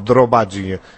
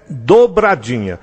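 First: The r sound comes right after the d. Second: The r sound comes right after the b. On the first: The speaker calls it wrong. "É até difícil falar errado" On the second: The speaker calls it right. "Então, é dobradinha"

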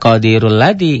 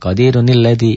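First: Qadiru runs straight into alladhi without an n. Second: An added n-sound links qadiru to alladhi. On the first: The speaker calls it wrong. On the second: The speaker calls it right. "Dibaca satu, Qadirunil"

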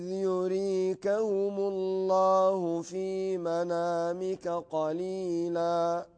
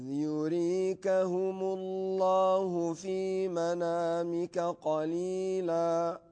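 No difference in how they are said.

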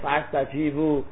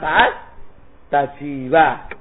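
First: The word ends with an u vowel. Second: The word ends with an a vowel. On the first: The speaker calls it wrong. "ada yang fa astajibu" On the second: The speaker calls it right. "Dibaca yang benar"

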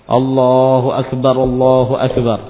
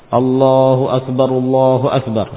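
No difference in how they are said.

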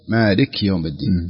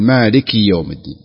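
First: The short vowel after the k is left out. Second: The short vowel after the k is clearly pronounced. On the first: The speaker calls it wrong. "البعض لا ينطق الكسرة" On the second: The speaker calls it right. "الصحيح أن يقول"

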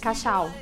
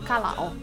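First: The double L sounds like sh. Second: The double L sounds like a plain L. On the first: The speaker calls it right. "toda vez que a palavra é dois L's, vai ter um som de CH" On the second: The speaker calls it wrong. "Eles sempre falam calau, porque são dois L's"

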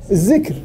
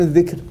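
First: The consonant is a 'z' sound. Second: The consonant is a voiced 'th' sound. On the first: "بعض اللهجات تذكر الذال زاي" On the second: "عندما يقول الذكر"

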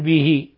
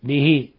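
Both takes have the same delivery.

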